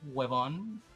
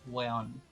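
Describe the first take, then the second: First: The word is said with all its syllables. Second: The word is said shortened, with sounds dropped. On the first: "the word huevon" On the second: "it's usually pronounced weon"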